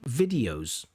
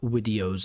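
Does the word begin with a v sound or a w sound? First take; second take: v; w. First: The first sound is a clear v. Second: The first sound is softened toward a w. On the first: The speaker calls it right. "have no problem in general saying videos" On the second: The speaker calls it wrong. "sounds a bit like videos"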